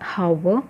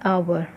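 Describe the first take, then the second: First: The word begins with an audible h sound. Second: The word begins directly with a vowel sound. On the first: The speaker calls it wrong. "It's not हावर" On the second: The speaker calls it right. "एच is silent here"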